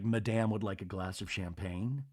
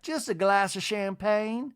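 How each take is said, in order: First: Low, soft, formal request; Whitney. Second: High, slow, lilting matron; Miss Patricia. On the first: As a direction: imitate a son discreetly instructing the butler. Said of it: "Whitney tells Randy". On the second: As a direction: imitate a grand lady placing her order, rising at the end. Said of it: "she tells Whitney". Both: Retold or imitated.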